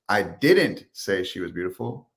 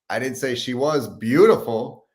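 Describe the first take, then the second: First: The word "didn't" carries the main stress. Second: The word "beautiful" carries the main stress.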